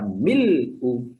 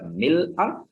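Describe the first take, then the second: First: The word ends with a 'u' vowel. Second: The word ends with an 'a' vowel. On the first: "bisa dibaca mil'u" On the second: "Bisa dibaca mil'a"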